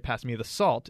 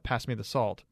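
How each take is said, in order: First: The word salt is given emphasis. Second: No word is given special emphasis. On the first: The salt is wanted, not another item. "it means don't pass me the pepper" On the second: It is a plain request for the salt. "that means pass me the salt"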